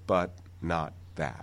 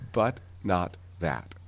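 First: The final T stops silently with no release. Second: The final T has an audible release. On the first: "those were unreleased, no audible release" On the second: "with an audible release but no aspiration?"

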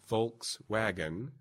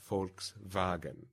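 First: It is said with an English pronunciation. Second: It is said with a German pronunciation. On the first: "We would say Volkswagen" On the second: "in German it's pronounced Volkswagen"

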